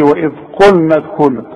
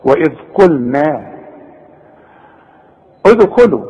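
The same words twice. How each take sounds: First: قلنا with a heavy, full-mouth ن; faulty heavy nun; wrong reading. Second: قلنا with a thin, light ن; correct reading. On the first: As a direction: thicken the ن of قلنا. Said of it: "ما اقولش". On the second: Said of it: "رقق لي النون". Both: Shown as a demonstration.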